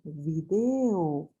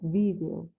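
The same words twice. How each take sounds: First: It is said the way local Bolivian speakers say it. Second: It is said the way speakers in Spain say it. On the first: This is how people here say it. "nosotros decimos video" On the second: This is how people in Spain say it. "es la forma en la que pronuncian en España esta palabra"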